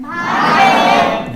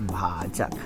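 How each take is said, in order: First: Confident class shouting the answer; bold shout. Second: Timid whisper. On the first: Teacher mimics students who know it, shouting boldly. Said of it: "आवाज बड़ा bold निकलता रहेगा". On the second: Teacher mimics a class unsure of the answer, whispering. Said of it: "हाँ, धीरे धीरे निकला ना". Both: Shown as a demonstration.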